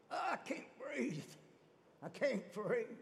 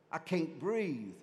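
First: High, strangled gasp for air; acted choking, straining for breath; being choked. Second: Slow, drawn-out complaint in a normal register; slow, understated acted stress; mock overwhelmed. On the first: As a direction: squeeze it out high, as if throttled. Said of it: "I'm choking you". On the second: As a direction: drag the words out, lightly acting stressed. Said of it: "I'm being choked to death".

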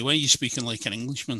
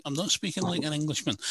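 First: Quick question, imitating a cousin; lightly voiced accusing question, said fast; retold challenge. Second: Higher, mildly protesting reply; retold denial. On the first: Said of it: "he'd say to me". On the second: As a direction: replay your own protest to a cousin. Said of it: "And I'm like".

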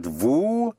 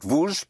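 First: VOUS as an open "voo", drawn out; slow-motion vous, ending on the vowel; silent S. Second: VOUS closed with a Z sound; vous with the S voiced as Z; wrong liaison split. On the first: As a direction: say vous with no Z on the end. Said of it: "it's not vous". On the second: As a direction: say vous as "vooz", Z stuck on the end. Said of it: "Again, in slow motion". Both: Shown as a demonstration.

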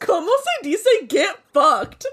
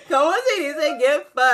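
First: Slow, giggling through the Spanish; laughing quote. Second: Giggling the Spanish line; laughing quote. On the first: Repeating her friend's funny line back, slow and laughing. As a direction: savor it slowly while cracking up. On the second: Retelling her own line to her friend, giggling. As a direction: say it while cracking up. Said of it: "I'm like". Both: Retold or imitated.

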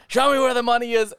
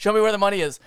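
First: High, urgent hold-up voice; escalating robber's demand. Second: Raised, higher hold-up voice; robber's demand. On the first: Robbers repeating themselves to victims, escalating. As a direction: push the mock demand to its peak. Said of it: "I just kept going". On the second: Robbers to their victims, insistent. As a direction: play the robber pressing harder. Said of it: "they're saying". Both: Acted.

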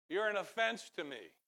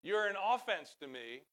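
First: "offense" said uh-FENSE, raised pitch; second-syllable stress. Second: "offense" said OFF-ense, raised pitch and volume; first-syllable stress. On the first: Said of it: "I put the emphasis on the wrong syllable". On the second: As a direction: hit the OF of "offense", as opposed to defense. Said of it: "Offense is what the opposite of defense". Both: Shown as a demonstration.

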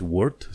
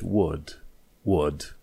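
First: "word" with a sounded R, rising. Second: "word" British style, R replaced by a long "uh"; silent R. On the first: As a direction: pronounce the R in "word". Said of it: "Și în loc să zici". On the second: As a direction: drop the R in "word", falling. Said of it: "atunci R-ul nu se pronunță". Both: Shown as a demonstration.

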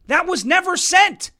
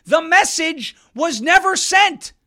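First: Higher, punched "never sent" with a long "sent"; stress on never sent. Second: Slow, higher, each word of "never sent" hit hard; slow stress on never sent. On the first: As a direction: lean hard on "sent". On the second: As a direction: spell it out slowly for emphasis. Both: Real, not acted.

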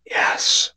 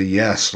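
First: Breathy, voiceless ghost whisper of yes; imitating the voice caught on the recorder; ghostly whisper. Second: Said in the usual way. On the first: Repeating the recorded ghost's whisper to his friend. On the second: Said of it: "we heard a voice say".

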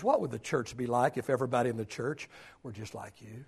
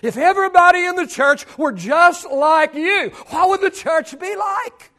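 First: Low, soft and lower; hushed question. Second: Louder and higher, pressing; raised preaching question. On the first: Preacher posing a hard question to the church, hushed. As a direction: ask it almost under breath. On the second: Preacher challenging each member of the church, raised voice. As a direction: throw the question out to the room. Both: Shown as a demonstration. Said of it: "And the question is".

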